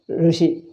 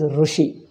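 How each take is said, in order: First: The first syllable is a plain syllabic r. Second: The first syllable has a u vowel. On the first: The speaker calls it right. "It is just R. It is neither E nor O" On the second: The speaker calls it wrong. "South Indians pronounce as Rushi. Ru, they make it totally U"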